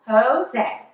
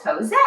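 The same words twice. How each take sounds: First: "Jose" split into two clear beats; "Jose" carefully in two syllables. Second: Said in the usual way. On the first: Shown as a demonstration. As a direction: sound out "Jose" as Ho-say, both syllables full. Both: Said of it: "that's two syllables".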